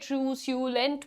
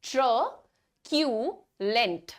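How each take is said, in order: First: The middle consonant is an s sound. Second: The middle consonant is a k sound. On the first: The speaker calls it wrong. "क्या आप इसे ट्रू स्यूलेंट बोलेंगे? Not at all." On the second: The speaker calls it right. "The correct pronunciation is going to be ट्रक्यूलेंट।"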